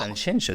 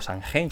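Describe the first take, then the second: First: The x sounds like a soft sh. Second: The x sounds like a throaty j. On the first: The speaker calls it right. "no saben decir Sanxenxo" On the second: The speaker calls it wrong. "o Sanjenjo"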